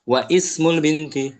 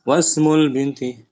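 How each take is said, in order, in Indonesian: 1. Vokal sebelum 'smul' dibaca dengan jelas. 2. Vokal sebelum 'smul' tidak dibaca dan disambung.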